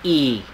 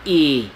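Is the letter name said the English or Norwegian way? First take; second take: Norwegian; Norwegian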